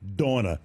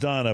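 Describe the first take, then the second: First: The name is said in a New England accent. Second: The name is said in a plain accent.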